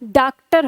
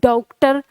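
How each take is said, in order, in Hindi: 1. पहला स्वर एक लंबी 'aa' ध्वनि है। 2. पहला स्वर एक 'au' ध्वनि है। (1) "हमने इसको ऐसे लिखा हिंदी में, तो इसका उच्चारण क्या हो गया" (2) "फिर हमने औ लगा के देखा"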